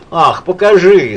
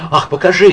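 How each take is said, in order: First: Slow, louder, drawn-out call; repeating her call, slower and louder; called out again. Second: Louder, higher eager call. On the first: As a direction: drag the plea out, insisting. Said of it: "снова крикнула она". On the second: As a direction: call out to see the drawing. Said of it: "крикнула Лида". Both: A narrator's reading.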